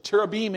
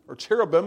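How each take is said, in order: First: The word is pronounced the Hebrew way. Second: The word is pronounced the English way. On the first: "in Hebrew" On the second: "as we pronounce it in English"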